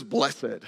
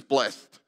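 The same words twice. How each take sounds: First: "blessed" said as BLESS-ed; "blessed" in two syllables, bless-id. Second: "blessed" said as BLEST; "blessed" with a silent e, like blest; one-syllable blessed. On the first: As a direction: sound the accented e in "blessed" as a second syllable. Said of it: "there's a fancy French accent over it". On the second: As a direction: close "blessed" straight onto -st, one syllable. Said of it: "who says blessed?". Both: Shown as a demonstration.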